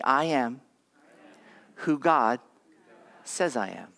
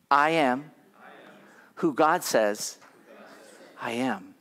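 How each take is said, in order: First: Said in the usual way. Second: Firm, deliberate declaration in short phrases; like meaning it. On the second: Shown as a demonstration. Pastor has congregation repeat their identity, said like they mean it. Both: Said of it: "Now say it like you mean it".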